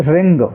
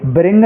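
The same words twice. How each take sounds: First: "रिंग" starting cleanly on R, W silent; correct silent W. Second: "ब्रिंग" with a wrong B sound before R; mispronounced wring. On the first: Teacher giving the only right reading, "रिंग" with silent W. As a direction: say "रिंग" with no B at the front. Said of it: "only रिंग". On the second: Teacher warning students off a misreading, "ब्रिंग" with an added B. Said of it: "ब्रिंग नहीं पढ़ना है". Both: Shown as a demonstration.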